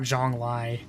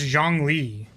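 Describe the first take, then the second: First: The name ends with a 'lie' sound. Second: The name ends with a 'lee' sound. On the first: The speaker calls it wrong. "not Zhonglai" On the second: The speaker calls it right. "It's Zhongli"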